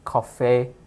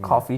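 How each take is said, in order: First: It is said in a European accent. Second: It is said in a North American accent. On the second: "how like North Americans say coffee"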